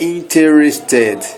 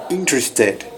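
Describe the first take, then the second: First: Interested said slowly in four full syllables, in-te-res-ted; the wrong, syllable-by-syllable interested; wrong pronunciation. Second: Interested in three syllables, IN-tres-ted, with the E after T dropped; English interested, natural three-syllable version; correct pronunciation. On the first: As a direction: sound the E between T and R in interested. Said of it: "não é interested, é interested". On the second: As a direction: skip the E between T and R in interested. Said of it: "A gente pula como se fosse só três sílabas". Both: Shown as a demonstration.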